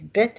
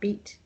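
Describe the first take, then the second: First: The vowel is short, as in 'bit'. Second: The vowel is long, as in 'beat'. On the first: The speaker calls it right. "it says bit at the end" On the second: The speaker calls it wrong. "not beat"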